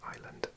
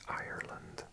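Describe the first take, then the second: First: The R sound is dropped, like island. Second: The R sound is pronounced strongly. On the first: "I'm Welsh, so I say them both the same" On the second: "Americans and Irish people pronounce the R a lot stronger"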